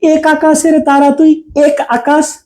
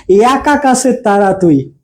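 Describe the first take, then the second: First: এক said with a wide open æ, like "অ্যাক"; sing-say এক as "অ্যাক", mouth open; teacher shows the real sound of এক in the song; open e demo. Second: এক said with a closed e, like "এক" as written; teacher offers the wrong reading for contrast; closed e demo. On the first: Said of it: "[name] কি বলেছেন". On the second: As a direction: say এক as a tight "এক", lips spread. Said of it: "নাকি বলেছেন". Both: Shown as a demonstration.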